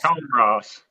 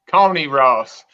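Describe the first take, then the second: First: The name is said the non-local way. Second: The name is said the South Carolina way. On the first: This is the actual name. The speaker calls it right. "but it's actually" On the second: This is how locals say it. The speaker calls it wrong. "In South Carolina, they call it Coney Ross"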